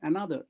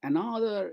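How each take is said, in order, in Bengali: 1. শব্দটি সহজ, স্বাভাবিক ভঙ্গিতে উচ্চারণ করা হচ্ছে। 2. শব্দটি কৃত্রিম, বানানো ভঙ্গিতে উচ্চারণ করা হচ্ছে। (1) "সিম্পল উচ্চারণ" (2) "এরকম নয়, আর্টিফিশিয়াল ওরম জড় উচ্চারণ না"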